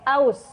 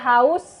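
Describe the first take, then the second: First: The word begins directly with a vowel. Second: The word begins with an 'h' sound. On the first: The speaker calls it wrong. "kesalahan penghilangan fonem" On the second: The speaker calls it right. "Dari kata haus"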